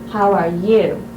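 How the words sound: The stress is on "you".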